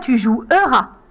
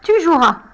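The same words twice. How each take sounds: First: The middle e is pronounced as a syllable. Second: The middle e is silent, not pronounced. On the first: The speaker calls it wrong. "On ne dit pas « tu joueras »" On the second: The speaker calls it right. "Je n'entends pas le « e »"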